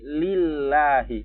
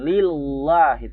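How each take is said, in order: First: The L is said thin and light, but pressed. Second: The L is said thick and heavy. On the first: The speaker calls it right. "Tipis aja, tapi ditekan" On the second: The speaker calls it wrong. "Bukan lillahi"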